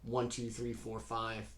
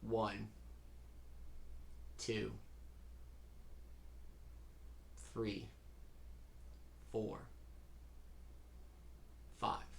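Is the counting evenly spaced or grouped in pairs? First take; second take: even; grouped. First: The numbers are evenly spaced without grouping. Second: The numbers come in pairs with longer pauses between.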